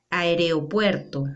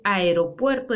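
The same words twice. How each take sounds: First: "aeropuerto" with an extra e, "aereopuerto"; common mispronunciation. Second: Said in the usual way. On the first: Shown as a demonstration. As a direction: say "aeropuerto" slowly as a-e-re-o-puerto. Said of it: "decimos aeropuerto". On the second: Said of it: "en vez de decir aeropuerto".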